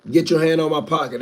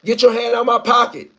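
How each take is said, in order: First: Said in the usual way. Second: Panicked yell for help, high and loud; pretend shout. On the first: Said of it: "That's all I need you to listen for". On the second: Man yelling at a thief grabbing his pocket, loud and high. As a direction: cry out as if being pickpocketed. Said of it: "just wait till you hear somebody say".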